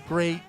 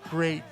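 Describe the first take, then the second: The two takes are said the same way.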